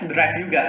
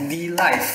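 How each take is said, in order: First: The title is said with an R sound. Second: The title is said with an L sound. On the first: This is the Japanese reading of the title. "katanya baca Drive" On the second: This is the local reading of the title. "kita baca D-Live lah"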